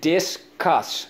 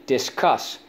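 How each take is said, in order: First: "Discuss" split as dis, cuss, pitched up; syllable by syllable. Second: Said in the usual way. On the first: Shown as a demonstration. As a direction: sound out "Discuss" in two beats. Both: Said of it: "So let's go".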